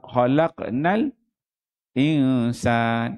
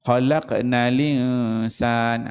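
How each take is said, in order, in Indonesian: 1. Ada saktah singkat sebelum kata terakhir. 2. Kata terakhir dibaca terus tanpa saktah. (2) "kalau naqal"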